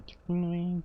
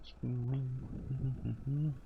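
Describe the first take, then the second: First: High sing-song chant, much higher; chanted meme. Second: Very slow, softer drawn-out chant; chanted, let it trail off in a long sing-song; slow chanted meme. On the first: Teasing Chloe about chickens, high chant. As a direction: pipe it up like a playground chant. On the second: Teasing Chloe about chickens, slow fading chant. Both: Pretend.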